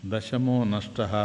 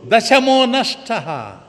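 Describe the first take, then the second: First: Lower, softer, slow musing repeat; calm old man. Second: High, slow, wailing cry. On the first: Old man calmly repeating the boys' cry to himself. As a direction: mull the words over quietly, slowly. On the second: Leader sobbing to the boys that one is lost. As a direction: wail it out, loud and slow, in tears. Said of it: "బోరున ఏడుస్తూ". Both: Acted.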